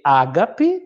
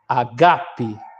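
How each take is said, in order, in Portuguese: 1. A tônica está na primeira sílaba. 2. A tônica está na segunda sílaba. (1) "Geralmente se lê ágape, mas no grego está errado" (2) "A tônica está no segundo alfa. A leitura fica agape"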